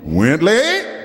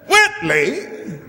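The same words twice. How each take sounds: First: The pitch does not fall from high. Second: The pitch falls from high to low.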